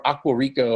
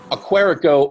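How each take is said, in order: First: Aquarico as two parts, Aqua plus Rico; alternative pronunciation. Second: Aquarico run together as one name, stressed on QUA; tentative pronunciation. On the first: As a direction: say Aquarico as AH-kwa-REE-co. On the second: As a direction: say Aquarico as a-KWAR-ico. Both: Shown as a demonstration. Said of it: "not sure how they wanna pronounce that".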